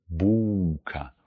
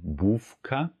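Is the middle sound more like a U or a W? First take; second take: U; W. First: The middle sound is a lengthened U vowel. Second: The middle sound is a clear W consonant. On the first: The speaker calls it right. "sondern tendenziell eher ein verlängertes U" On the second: The speaker calls it wrong. "manche sprechen gerne Bułka. Das ist falsch. Wir möchten kein W-Laut haben"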